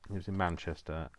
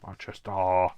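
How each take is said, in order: First: Said in the usual way. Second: Booming, hammed-up Manchester accent; exaggerated Manchester. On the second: Shown as a demonstration. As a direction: belt out Manchester with a put-on local twang. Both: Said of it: "I have to say it like that".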